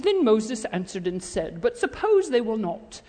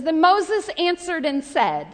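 First: Formal British scripture recital, pitched down; mock British reading. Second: Said in the usual way. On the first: Shown as a demonstration. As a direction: read it like a stiff text, with a put-on British accent. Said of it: "'cause he wasn't British". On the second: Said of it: "let's not read this like we're reading a text".

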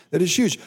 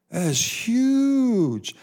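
First: Said in the usual way. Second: High, slow, stretched-out amazement; drawn-out marvel. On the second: Acted. Preacher wows his listeners, stretching the words up high. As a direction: pastor savouring his point to the congregation, drawn out high and slow.

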